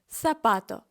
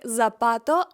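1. Перший звук — придихальний th. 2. Перший звук — дзвінкий z. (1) "а ми скажемо сапато" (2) "Це слово не вимовлятиметься як запато"

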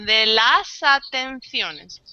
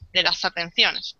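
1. Las palabras se dicen despacio y separadas. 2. Las palabras se dicen rápido y unidas. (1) "hablando despacio" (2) "Cuando hablamos rápido y en un lenguaje normal, fluido ... todo junto"

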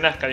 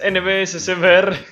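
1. El nombre se dice como una sola palabra. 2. Cada letra del nombre se dice por separado. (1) "se dice NASCAR" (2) "pronunciaba todas las letras así"

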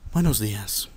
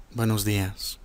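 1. Se dice con un tono triste y apagado. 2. Se dice con un tono triste y apagado.

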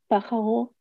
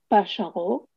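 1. Usa el sonido consonántico del español moderno. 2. Usa el sonido consonántico más antiguo del judeoespañol. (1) "y no" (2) "en judeo español se dice"

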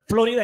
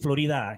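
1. El acento está en la primera sílaba. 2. El acento está en la segunda sílaba. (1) "Florida en inglés" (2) "Florida en español"

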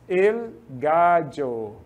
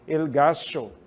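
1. É pronunciado com sotaque neutro do espanhol. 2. É pronunciado com sotaque argentino do espanhol.

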